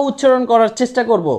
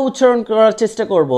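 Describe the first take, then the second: No difference in how they are said.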